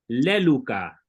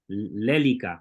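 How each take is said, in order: First: The second vowel sounds like 'u'. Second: The second vowel sounds like 'i'. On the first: "siempre van a escuchar pronunciar la Y como U porque así lo aprendí" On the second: "voy a tratar de pronunciarlo como una I"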